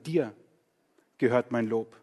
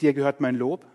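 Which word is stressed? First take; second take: Dir; Lob. First: The stress is on Dir. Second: The stress is on Lob, not on Dir.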